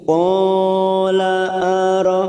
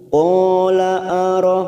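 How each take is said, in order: First: The long vowel is stretched for three beats. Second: The long vowel is held for two beats. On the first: The speaker calls it wrong. "maka itu namanya kepanjangan satu harokat, ya, artinya itu tiga harokat, dan itu akan menjadi kesalahan" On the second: The speaker calls it right. "ini kita panjangkan dua harokat mutlak"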